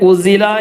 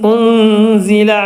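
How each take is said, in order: First: The n sound is dropped entirely. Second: The n is hidden with a nasal sound. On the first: The speaker calls it wrong. "ഉസില എന്നും പറയൂല" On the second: The speaker calls it right. "ഒഴിവാക്കുകയും വെളിവാക്കുകയും ചെയ്യാത്ത രൂപത്തിൽ"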